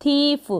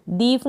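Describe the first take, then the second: First: थीफ starting with an aspirated th, long ee; th sound. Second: दीफ starting with a voiced d; wrong d sound. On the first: Teacher modelling the word for learners, थ opening थीफ. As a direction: begin थीफ on an airy थ. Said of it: "यहाँ पर थ pronounce किया". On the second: Teacher showing the misreading, voiced द opening दीफ. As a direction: put द in place of थ in दीफ. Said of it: "दीफ नहीं पढ़ेंगे". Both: Shown as a demonstration.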